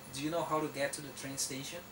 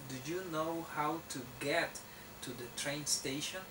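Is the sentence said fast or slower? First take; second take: fast; slower. First: The sentence is said at a faster pace. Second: The sentence is said at a slower pace.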